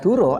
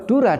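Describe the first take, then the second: First: The final vowel is pronounced as 'o'. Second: The final vowel is pronounced as 'a'. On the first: It means a lie. The speaker calls it wrong. "kalau Dura dibaca Duro artinya bohong" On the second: It means water. The speaker calls it right. "Dura artinya air"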